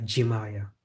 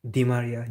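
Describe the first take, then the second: First: French-style Di Maria, Ji Maria. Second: Said in the usual way. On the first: Shown as a demonstration. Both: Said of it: "Where's the G there?".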